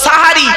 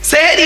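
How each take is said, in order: First: The first vowel is an a sound. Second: The first vowel is an e sound. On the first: The speaker calls it right. "শব্দটা সাহারি... দন্তস্বয় আকার" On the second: The speaker calls it wrong. "এই তো ভুল হয়ে গেল, সেহেরি নয়"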